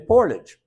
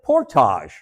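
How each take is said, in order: First: The word is said in the everyday way. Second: The word is said in an unusual, fancier way.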